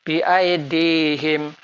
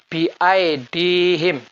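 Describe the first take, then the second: No difference in how they are said.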